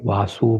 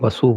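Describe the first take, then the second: First: वासु spoken as vaa-su, first vowel held long; long-vowel vaasu. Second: वसु spoken as va-su, first a kept short; short-vowel vasu. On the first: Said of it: "कुछ लोग वासु बोलते हैं". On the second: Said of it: "कुछ लोग वसु बोलते हैं". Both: Shown as a demonstration.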